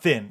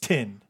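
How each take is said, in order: First: The word begins with a soft 'th' sound. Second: The word begins with a hard 't' sound. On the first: The speaker calls it wrong. "It's not thin" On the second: The speaker calls it right. "you actually pronounce it Tin Lizzy"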